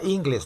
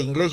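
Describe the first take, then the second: First: The stress is on the first syllable. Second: The stress is on the last syllable. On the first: It names the groins, a body part. "Diría inglés" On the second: It names the English language. "a inglés yo le quito la tilde"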